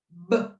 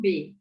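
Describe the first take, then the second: First: It is said as a short bare consonant sound. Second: It is said as the letter name with a vowel. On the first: The speaker calls it right. "ela faz o som B" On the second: The speaker calls it wrong. "a letra B não faz o som B"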